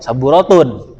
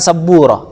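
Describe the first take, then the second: First: The word ends with the full -tun ending. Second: The word stops without the final case ending. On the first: This is the underlying full form. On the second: This is the pausal form used when stopping.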